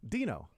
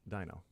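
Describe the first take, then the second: First: The first vowel is a long E sound. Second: The first vowel is not a long E sound. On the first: The speaker calls it right. "he's probably Dean. It's nicknamed Dino" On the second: The speaker calls it wrong. "not uh"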